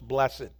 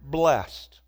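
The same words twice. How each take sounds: First: The word is said as two syllables. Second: The word is said as one syllable.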